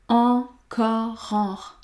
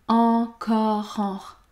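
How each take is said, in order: No difference in how they are said.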